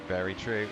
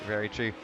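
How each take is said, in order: The two takes are said the same way.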